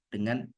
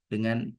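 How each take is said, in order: Both takes have the same delivery.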